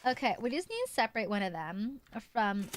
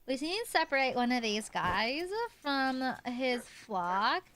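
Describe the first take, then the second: First: Said in the usual way. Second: Put-on Valley Girl accent. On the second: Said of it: "a Valley Girl kinda accent".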